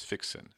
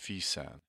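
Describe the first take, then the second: First: The x is sounded as ks, English style. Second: The x is sounded as a plain s. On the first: The speaker calls it wrong. "an Anglophone would typically pronounce it as fixin" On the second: The speaker calls it right. "the X is pronounced as a double S"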